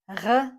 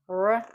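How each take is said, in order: First: The R is a throaty sound at the back. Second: The R is a smooth untrilled English sound. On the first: "This is not R uh, as in French" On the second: "This is not R as in English"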